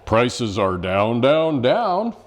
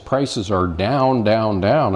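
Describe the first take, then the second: First: It is said in a radio announcer voice. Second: It is said in an ordinary speaking voice.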